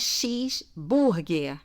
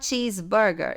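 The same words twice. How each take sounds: First: The first part sounds like Portuguese 'xis'. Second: The first part sounds like English 'cheese'. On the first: This is how Brazilians normally say it. The speaker calls it right. "É assim que a gente fala" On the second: The speaker seems to be showing off. The speaker calls it wrong. "Se você falar cheeseburger, eles vão falar: ah, você tá tirando onda"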